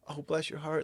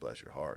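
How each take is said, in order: First: It sounds adoring, like praising something cute. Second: It sounds cutting, like a veiled insult.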